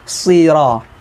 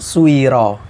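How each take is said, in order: First: The s is followed by a plain i vowel. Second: The s glides through a w sound first. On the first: The speaker calls it right. "tapi yang benar siro" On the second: The speaker calls it wrong. "Jangan sampai suiro"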